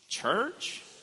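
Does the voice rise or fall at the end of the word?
rise. The voice rises at the end, like a question. It asks what church is.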